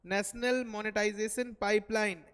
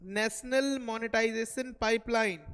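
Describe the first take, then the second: First: Said in the usual way. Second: Slow and louder, each word spelled out for notes; dictating a term to note-takers; slow dictation. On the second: Shown as a demonstration. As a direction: dictate "national monetization pipeline" slowly so students can write it. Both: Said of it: "दूसरा लिखेंगे".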